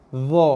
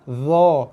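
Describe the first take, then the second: First: The consonant is a voiced th-like sound. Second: The consonant is a voiced th-like sound.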